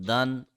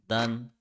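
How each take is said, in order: The two takes are said the same way.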